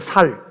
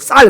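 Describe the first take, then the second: First: It starts with a plain 's' sound. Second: It starts with a tense 'ss' sound.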